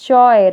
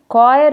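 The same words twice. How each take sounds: First: The word starts with a CH sound. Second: The word starts with a K sound. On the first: The speaker calls it wrong. "Don't pronounce it as choir" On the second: The speaker calls it right. "you should say it choir of singers. H is silent"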